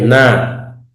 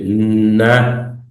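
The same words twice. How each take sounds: First: The n sound is short and single. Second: The n sound is long and doubled. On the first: The speaker calls it wrong. "No es na. Si fuera na, fuera tomar" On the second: The speaker calls it right. "es na. Pronuncia, se, se va a geminar"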